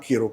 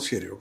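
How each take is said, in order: First: The name begins with a k sound. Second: The name begins with a sh sound. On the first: This is how it is said in India. "हम लोग यहाँ कीरो करते हैं" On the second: This is how it is said in Ireland. "Irish pronunciation में ... उनका pronunciation वो शेरियो करते हैं"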